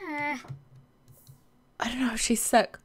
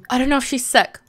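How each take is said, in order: First: Whisper, very slow and drawn out; hushed fretting whisper; slow worried whisper. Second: Said in the usual way. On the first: Real, not acted. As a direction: breathe it out like you fear the answer. Repeats worry in different ways.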